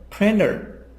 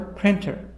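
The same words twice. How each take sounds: First: The T sounds like a soft D. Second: The T is pronounced as a clear T.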